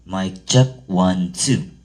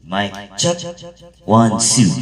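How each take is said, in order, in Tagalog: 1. Tuyo ang tunog ng boses, walang echo. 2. May dagdag na echo effect ang boses. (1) "tunog guys pag walang echo" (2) "lagyan natin ng echo guys"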